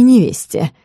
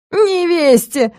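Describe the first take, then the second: First: Said in the usual way. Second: High, slow howl of outrage; a count howling the word back in disbelief. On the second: Acted. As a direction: drag the word out in a wailing howl. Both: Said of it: "взвыл граф".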